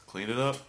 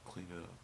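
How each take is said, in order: First: Loud, higher, rising command; imitated boss, loud with an upward lilt; curt boss's order. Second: Soft, subdued repetition; dejected echo. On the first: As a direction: call it out brightly, rising at the end. Imitating boss giving the dreaded order. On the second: Retold or imitated. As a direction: repeat it quietly, as the worst news. Dejectedly echoing the boss's order.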